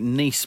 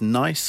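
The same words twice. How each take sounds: First: The vowel sounds like 'ee', as in niece. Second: The vowel sounds like 'eye', as in nice. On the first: It is said the French way. "unless she is part French" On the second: It is said the ordinary English way. "Surely it's nice"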